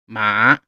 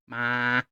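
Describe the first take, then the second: First: The pitch dips down then comes back up. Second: The pitch stays flat and high. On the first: "Then we have the dipping tone" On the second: "We have the level tone"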